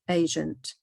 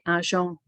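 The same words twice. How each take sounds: First: The word has English pronunciation. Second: The word has French pronunciation. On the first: "in English" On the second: "in French"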